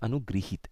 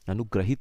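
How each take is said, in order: First: The middle syllable is said as 'gri'. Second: The middle syllable is said as 'gra'. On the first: The speaker calls it right. "हम इसे कहते हैं अनुगृहित" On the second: The speaker calls it wrong. "अनुग्रहित हम बोल देते हैं"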